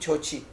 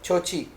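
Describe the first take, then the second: First: The second consonant is a 'ch' sound. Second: The second consonant is a 'ch' sound.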